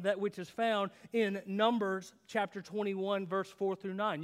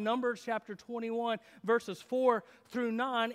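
First: Said in the usual way. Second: Numbers chapter twenty-one said again slowly and louder, each word leaned on; slow emphatic repeat. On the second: Shown as a demonstration. Pastor repeating the scripture reference to his congregation, slow and emphatic. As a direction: drive the reference home slowly.

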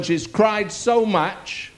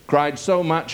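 First: She's cried so much, slow with a high lift on so; stressed so. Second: Said in the usual way. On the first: Shown as a demonstration.

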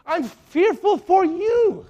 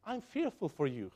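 First: Louder and slow, drawn-out warning; loud fearful plea. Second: Low, hushed worry for the flock; softly fearful. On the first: Paul pleading with wayward believers, loud and slow. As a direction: cry it out slowly so they feel the danger. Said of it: "And yet you want to". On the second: Paul quietly confessing fear to the Galatians, hushed. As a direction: say it quietly, almost to yourself. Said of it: "notice what he says". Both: Retold or imitated.

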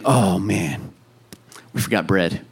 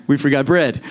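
First: Low, soft, deflated disciples' moan; mopey grumble. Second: Said in the usual way. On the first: Retold or imitated. Disciples grumbling about forgotten bread, low mopey moan. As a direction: sigh it out like a let-down disciple. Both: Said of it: "They're like".

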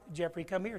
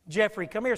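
First: Said in the usual way. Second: Loud worried call, rising at the end; calling out loudly. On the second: Retold or imitated. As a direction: shout for the lost boy to come back. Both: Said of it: "becomes more frantic".

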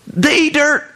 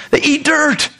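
First: They eat dirt, with eat punched; stress on eat. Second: They eat dirt, with dirt punched; stress on dirt. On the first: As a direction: lean on the word eat. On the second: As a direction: land hard on dirt. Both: Shown as a demonstration. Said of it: "repeated with new stress".

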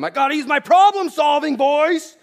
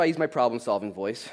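First: High, full-volume parental bellow; yelling. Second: Said in the usual way. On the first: Acted. Dad to squabbling kids over Legos, yelling. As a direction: holler it across the room at the kids. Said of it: "or were you yelling at them?".

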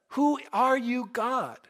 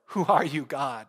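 First: High, slow, wondering question; Saul questioning God. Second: Said in the usual way. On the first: Retold or imitated. Saul asks the voice who it is, high and questioning. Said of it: "and he says".

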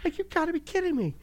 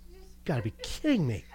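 First: Much higher exasperated squeak; retelling his reaction on the trampoline, mock exasperation; exasperated mock disbelief. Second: Said in the usual way. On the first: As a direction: act out the disbelief comically. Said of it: "laughs Right? Like".

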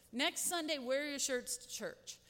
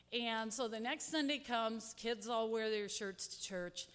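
First: Put-on higher, brighter announcing voice to the kids; telling the kids. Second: Said in the usual way. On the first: Leader telling the church kids to wear their new shirts, eager. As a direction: call it out to the children like good news. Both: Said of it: "And I told the kids".

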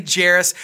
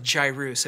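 First: "Jairus" said like JAIR-us; family's pronunciation. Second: "Jairus" with a long-i first syllable, JY-roos; correct pronunciation. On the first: Pastor giving his son's name, "Jairus" pronounced JAIR-us. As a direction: rhyme the start of "Jairus" with chair. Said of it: "but we say Jairus". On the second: Pastor giving the proper name, "Jairus" pronounced JY-roos. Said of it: "if you pronounce it correctly". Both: Shown as a demonstration.

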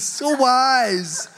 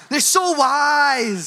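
First: Said in the usual way. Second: "so wise" slow, high and loud, laying it on; mock-gushing kid overdoing it; sarcastic child, "so" stretched out; sarcastic praise.

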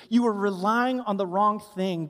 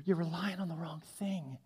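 First: Said in the usual way. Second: Soft unvoiced whisper. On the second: Shown as a demonstration. Preacher whispers the warning to the congregation. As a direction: drop to a whisper on You're.

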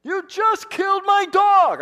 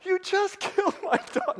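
First: High, loud, stretched-out scream at the driver; furious yell. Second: High, hammed-up accusation breaking into a laugh; mock outrage, laughing. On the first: Retold or imitated. Boy yells at driver who killed his dog, furious scream. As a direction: yell it out the window at him, heartbroken. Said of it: "I yelled at this guy". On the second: Preacher jokes about the dog today, laughing mock outrage. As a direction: joke that you'd be glad now. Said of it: "now I'd be kinda like".

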